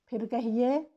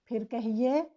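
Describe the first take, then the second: The two takes are said the same way.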